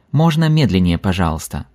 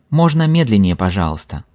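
The two takes are said the same way.

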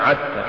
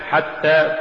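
First: "عتى" with voiced ayn for the first ha; ha mispronounced as ayn. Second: Said in the usual way. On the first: Shown as a demonstration. Teacher showing a recitation error, "عتى" begun with ayn. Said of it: "تقرأ لحنا". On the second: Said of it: "استبدال الحاء بالعين".

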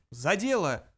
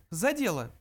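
First: Cheery toast, mildly raised; spirited rallying cry; hearty exclamation. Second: Lightly voiced higher mouse; a hint of small-creature voice. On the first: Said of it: "дружно воскликнули они". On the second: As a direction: get to business as a little mouse. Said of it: "произнёс Бенджи". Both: A narrator's reading.

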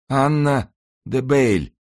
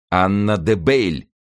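First: Slow, high, strained utterance; wounded man's gasped reply. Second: Slow, raised-pitch outcry; exclaiming. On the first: Dying man yields the name to monk, high and strained. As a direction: give up the name in a thin high voice. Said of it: "прошептал раненый". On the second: Monk hears the name and exclaims it slowly. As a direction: seize on the name, stretching it out. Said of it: "воскликнул монах". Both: A narrator's reading.

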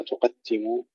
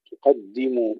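First: تقدموا said softer, with t replacing d; dal turned ta. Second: تقدموا with a voiced, light double d; clear dal. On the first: Teacher mimics the slip, t in تقدموا. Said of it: "ألا نحولها إلى تاء". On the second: Teacher corrects it, clear d in تقدموا. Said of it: "ترقيق الدال". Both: Shown as a demonstration.

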